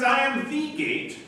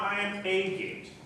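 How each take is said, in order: First: "the" in "I am the gate" lifted high and slowed; "I am the gate" with "the" drawn out and raised; stress on THE. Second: Said in the usual way. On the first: Shown as a demonstration. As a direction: lean on "the" in "I am the gate" to mean the only one. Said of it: "not "I am a gate".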